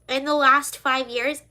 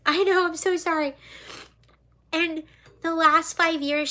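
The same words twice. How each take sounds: First: Said in the usual way. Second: Higher, teary voice; restarting while choked up; tearful apology. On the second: Real, not acted. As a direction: through tears. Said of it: "why am I crying".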